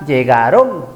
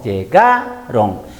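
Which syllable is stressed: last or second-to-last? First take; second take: last; second-to-last. First: The stress is on the last syllable. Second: The stress is on the second-to-last syllable. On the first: The speaker calls it wrong. "Si pongo el acento en la última sílaba sería llegaron" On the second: The speaker calls it right. "La sílaba tónica está por acá. Última, penúltima sílaba tónica"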